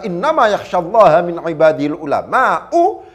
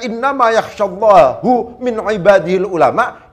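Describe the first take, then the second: First: The word Allah ends in an 'a' vowel. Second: The word Allah ends in a 'u' vowel. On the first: Only the scholars fear God. "yang takut hanyalah ulama kepada Allah itu" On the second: God is concerned only about the scholars. "yang takut Allah itu hanya khawatir"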